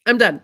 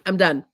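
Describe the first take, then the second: First: Firmer, louder "done"; louder repeat. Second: Said in the usual way. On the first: Real, not acted. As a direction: slam the door on it.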